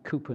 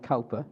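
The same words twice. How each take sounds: First: The first syllable sounds like 'coo'. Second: The first syllable sounds like 'cow'. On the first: The speaker calls it right. "that you pronounce it Cowper" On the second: The speaker calls it wrong. "not Cowper"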